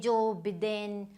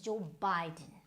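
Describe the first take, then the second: First: The name is said with Indian English letter sounds. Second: The name is said with its standard sounds. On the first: The speaker calls it wrong. "if you go by your Indian English" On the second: The speaker calls it right. "it is Joe Biden"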